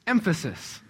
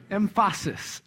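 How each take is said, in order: First: Said in the usual way. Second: EmPHAsis with the middle syllable stressed; playful mis-stress. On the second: Shown as a demonstration. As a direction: lean on a long second syllable in emPHAsis. Plays on the word emphasis, stressed wrongly.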